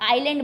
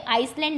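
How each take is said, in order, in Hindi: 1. l से पहले s की कोई आवाज़ सुनाई नहीं देती। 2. s की आवाज़ l से पहले बोली जाती है। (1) "ये एस लिखा जाता है बट बोला नहीं जाता, आइलैंड बोला जाता है" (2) "ये आइसलैंड नहीं"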